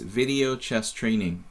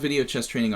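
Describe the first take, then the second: First: The name is said slowly and clearly. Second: The name is said very quickly. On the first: The speaker calls it right. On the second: The speaker calls it wrong.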